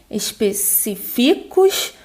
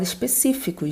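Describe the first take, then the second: First: The stress is not on the third-to-last syllable. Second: The stress is on the third-to-last syllable. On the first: The speaker calls it wrong. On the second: The speaker calls it right.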